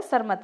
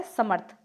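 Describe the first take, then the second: First: सरमथ as sar-math, r before m; wrong pronunciation. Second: समर्थ as sa-marth, r just before th; samarth, r in the second syllable of समर्थ; correct pronunciation. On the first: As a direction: sound the r too early in सरमथ. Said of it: "जबकि सरमथ नहीं होता". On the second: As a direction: sound the r late in समर्थ. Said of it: "क्या होता है?". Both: Shown as a demonstration.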